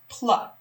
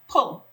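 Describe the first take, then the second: First: The part ends in an open 'ah' vowel. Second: The part ends in a dark 'ul' sound. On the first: The speaker calls it wrong. "That doesn't sound like a word that I know" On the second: The speaker calls it right. "this L E at the end of a word actually says O, not L"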